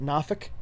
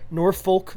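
First: The name is squeezed into a short reduced form. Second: The name is said with both syllables full.

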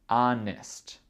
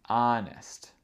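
No difference in how they are said.

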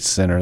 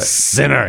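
First: It is said flatly, without feeling. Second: It is said with scornful, dramatic feeling.

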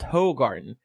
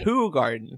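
First: The first syllable sounds like 'ho'. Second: The first syllable sounds like 'who'. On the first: The speaker calls it wrong. "I have been a firm believer that Who Garden is pronounced Ho Garden" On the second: The speaker calls it right. "But it's actually right. Who garden, like who is Laura?"

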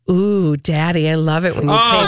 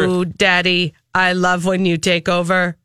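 First: It is read in a sultry, flirtatious way. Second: It is read in a flat, robotic way. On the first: The speaker calls it wrong. "don't read it sexy" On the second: The speaker calls it right. "Read it like a robot"

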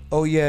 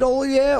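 First: It is said as plain, casual agreement. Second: It is shouted like the Kool-Aid Man.

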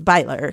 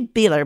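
First: The first vowel sounds like 'eye'. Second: The first vowel sounds like 'ee'. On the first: This is how the name is actually said. The speaker calls it right. "but it's Beiler" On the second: This is the reading one would naturally guess. The speaker calls it wrong. "I would say Beeler"

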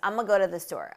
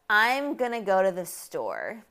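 First: The words run together with reduced sounds. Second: Each word is said separately and carefully. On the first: The speaker calls it right. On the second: The speaker calls it wrong.

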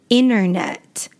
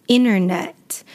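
Both takes have the same delivery.

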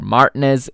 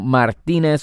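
First: The name has a British pronunciation. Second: The name has a non-British pronunciation.

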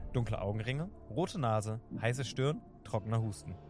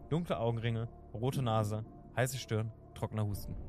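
No difference in how they are said.

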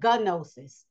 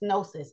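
First: The word starts with a G sound. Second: The word starts without a G sound. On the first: The speaker calls it wrong. "That's not how it's pronounced. The G is silent" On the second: The speaker calls it right. "That's gnosis"

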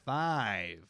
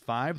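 First: The vowel is drawn out and long. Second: The vowel is said at normal, short length. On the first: "they will make their vowels long" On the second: "instead of saying five"

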